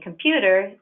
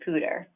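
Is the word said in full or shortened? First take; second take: full; shortened. First: All three syllables of the word are said. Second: The first syllable of the word is left out. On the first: "Instead of saying computer" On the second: "They may omit one or more syllables in a multisyllabic word"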